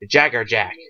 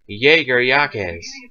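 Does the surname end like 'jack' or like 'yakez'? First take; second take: jack; yakez. First: The surname is said with an English 'jack' ending. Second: The surname is said with a Spanish 'yakez' ending. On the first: This is how the name is said in the show. "but in the Bleach it's Jagger Jack" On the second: This is the original Spanish pronunciation. "if you actually want the Spanish"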